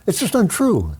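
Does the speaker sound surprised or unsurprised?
surprised. It sounds surprised.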